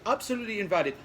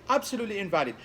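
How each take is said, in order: No difference in how they are said.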